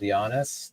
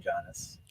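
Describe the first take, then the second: First: The name begins with a Y sound. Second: The name begins with a J sound. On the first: This is the traditional pronunciation. "traditionally it's called Giannis... you pronounce it with a Y" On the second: This is an acceptable alternative pronunciation. "but you can say Giannis"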